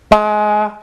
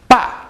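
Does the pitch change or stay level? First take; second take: level; changes. First: The pitch stays steady throughout the syllable. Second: The pitch moves rather than staying steady. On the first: It means eight. "the first one is the first tone. Ba, your voice just stays steady" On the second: It means dad. "is fourth tone"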